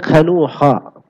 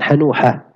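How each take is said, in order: First: The name starts with a rasping throat sound. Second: The name starts with a soft breathy sound. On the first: "Pakai kha bisa" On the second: "pakai ha juga bisa"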